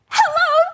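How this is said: It is said in an excited way.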